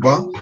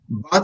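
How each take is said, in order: First: The word is said with a reduced vowel. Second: The word is said with its full vowel. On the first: "but se convierte en ba" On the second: "but se convierte en ba"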